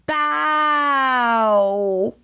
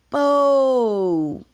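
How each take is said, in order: First: The vowel is an 'ow' sound. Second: The vowel is an 'oh' sound. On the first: "Ow is the pain sound" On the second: "not bow"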